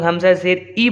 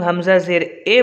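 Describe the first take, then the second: First: ई said as a pure long "ee"; maroof vowel. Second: ए said as an open "ay" instead of "ee"; faulty majhool reading, ए as in "say"; majhool vowel. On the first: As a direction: end हमज़ा ज़ेर ई on a clear "ee" sound. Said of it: "तो ये मारूफ हो गया". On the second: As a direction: end हमज़ा ज़ेर ए on an "ay" sound. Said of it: "तो ये मजहूल हो गया". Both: Shown as a demonstration.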